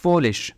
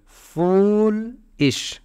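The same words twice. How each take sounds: First: Said in the usual way. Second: फूलिश with a long, rising fool, then a short ish; syllable by syllable. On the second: Shown as a demonstration. Teacher showing two syllables, फूलिश hugely stretched and split. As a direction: stretch the first beat of फूलिश high, then add ish. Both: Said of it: "दो syllable".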